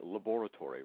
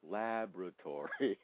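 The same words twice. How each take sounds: First: It is said with a British pronunciation. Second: It is said with an American pronunciation. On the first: "you say laboratory" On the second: "we say laboratory"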